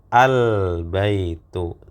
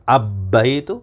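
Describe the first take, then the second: First: The L is clearly pronounced before the b. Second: The L is dropped and the b is doubled. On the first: The speaker calls it right. "tetap lamnya dibaca" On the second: The speaker calls it wrong. "Apakah langsung masuk ke huruf ba kemudian ditasdid?"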